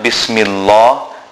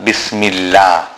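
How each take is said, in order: First: The L sound is heavy and full-mouthed. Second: The L sound is light and empty-mouthed. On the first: The speaker calls it wrong. "So it is not Bismillah" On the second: The speaker calls it right. "then it is read empty mouth"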